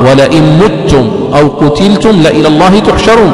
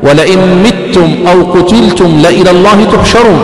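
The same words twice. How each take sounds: First: متم recited as "muttum"; "muttum", u after the mim of متم; damma reading. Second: متم recited as "mittum"; "mittum", i after the mim of متم; kasra reading. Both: Shown as a demonstration. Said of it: "بالكسر وبالضم".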